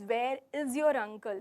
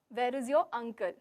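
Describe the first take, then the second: First: The word 'is' carries the main stress. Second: The word 'uncle' carries the main stress. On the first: He has not been seen around. "if I'm stressing on is" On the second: The uncle is wanted, not other relatives. "So here I'm going again stressing on uncle"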